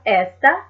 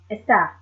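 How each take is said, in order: First: "esta" stressed on the first syllable, ES-ta; wrong-syllable stress. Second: "está" stressed on the last syllable, es-TÁ; final-syllable stress. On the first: Teacher showing learners the wrong accent, "esta" stressed on ES. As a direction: put the weight on the opening "es" of "esta". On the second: Teacher correcting the accent for learners, "está" stressed on TÁ. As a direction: land the weight on the closing "tá" of "está". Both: Shown as a demonstration. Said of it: "just to give that accent on that".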